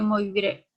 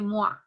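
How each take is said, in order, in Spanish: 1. El nombre se pronuncia como se escribe. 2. El nombre se pronuncia a la francesa. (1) "lo vamos a pronunciar así como se lee" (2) "que es la pronunciación más correcta"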